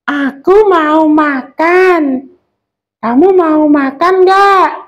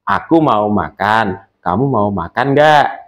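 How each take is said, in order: First: The voice is squeaky and high-pitched. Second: The voice is the speaker's normal natural voice. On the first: A small character, such as a child, is speaking. "suara kecil itu kita melengkingkan suara kita" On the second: The narrator is speaking. "itu suara asli yang sudah kita produksi selama ini"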